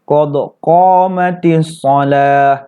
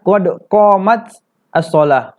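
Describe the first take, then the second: First: Qamat joins shalah with an 'i' vowel. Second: Qamat joins shalah with an 'a' vowel. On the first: This is the changed form used because it is easier to say. The speaker calls it right. "diubah menjadi kasroh" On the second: This is the original form of the phrase. The speaker calls it wrong. "Asal katanya"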